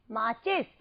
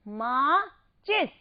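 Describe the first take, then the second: First: Said in the usual way. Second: माचिस slowly split into मा and चिस; syllable by syllable. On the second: Shown as a demonstration. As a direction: pause inside माचिस, sounding out each part. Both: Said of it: "मात्रा तो बन गया ची".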